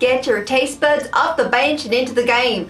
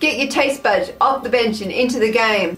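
First: It is read in an attempted American accent. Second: It is read in the speaker's natural accent. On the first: "Prepare yourselves, this is gonna be bad" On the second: "I really should be saying that in an American accent"

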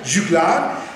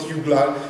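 First: The name is pronounced the French way. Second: The name is pronounced the German way. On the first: The speaker calls it right. "a French, Juglar" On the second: The speaker calls it wrong. "not Juglar, like a German"

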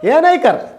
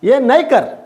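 First: The negative word is reduced to nai. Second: The negative word is reduced to nai.

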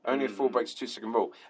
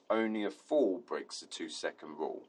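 First: The phrase is said quickly, rushed together. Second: The phrase is said slowly and deliberately. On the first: The distance was noticed too late. The speaker calls it wrong. "I was saying it that quick" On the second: The following distance was enough. The speaker calls it right. "if I had said it like that"

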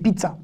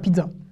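First: The middle consonant is a ts sound. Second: The middle consonant is a dz sound. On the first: The speaker calls it right. "c'est pizza" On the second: The speaker calls it wrong. "pas pizza. Le son dz n'existe pas en hébreu"

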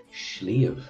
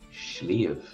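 Both takes have the same delivery.

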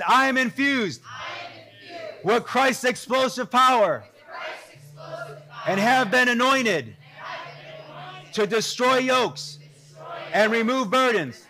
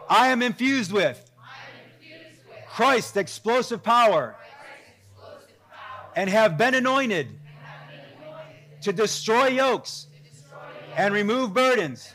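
First: It is declared forcefully, with strong conviction. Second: It is read plainly, without special force.

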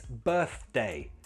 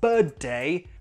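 First: The middle sound is a 'th' sound. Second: The middle sound is a 't' sound. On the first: The speaker calls it right. "it's birthday" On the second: The speaker calls it wrong. "It's not birthday"

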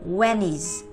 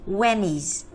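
No difference in how they are said.

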